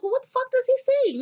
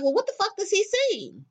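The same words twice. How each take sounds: First: Higher, louder disbelief; louder incredulous question. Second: Incredulous question. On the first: Retelling her reaction to the king claim, outraged. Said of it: "And I was like". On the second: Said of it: "I was just like". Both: Retold or imitated.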